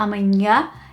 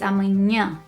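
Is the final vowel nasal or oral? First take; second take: oral; nasal. First: The final vowel is oral, not through the nose. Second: The final vowel is strongly nasal, through the nose. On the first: The speaker calls it wrong. "not with your throat" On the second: The speaker calls it right. "It comes from up here"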